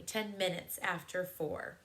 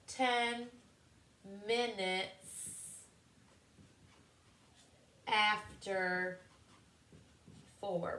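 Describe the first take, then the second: First: Said in the usual way. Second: Ten, minutes, after, four said apart with long pauses; slow word by word. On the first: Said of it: "We could say it like that". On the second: Shown as a demonstration. Teacher modelling the phrase for the class, slow and separated. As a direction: spell it out one word at a time. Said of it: "So we could say".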